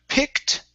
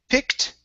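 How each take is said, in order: No difference in how they are said.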